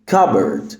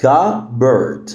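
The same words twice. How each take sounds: First: "Cupboard" run together as "cubberd"; silent P. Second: "Cupboard" split slowly as "cu-bberd"; syllable by syllable, silent P. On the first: Teacher models the whole word, "Cupboard" with silent P. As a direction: say "Cupboard" in one go, no P. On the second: Teacher breaks down the word, "Cupboard" in two slow syllables. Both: Shown as a demonstration. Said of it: "ال P هنا silent".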